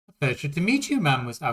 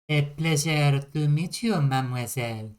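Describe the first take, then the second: First: It is said in the speaker's plain accent. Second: It is said with a French accent.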